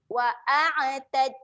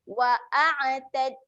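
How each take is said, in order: No difference in how they are said.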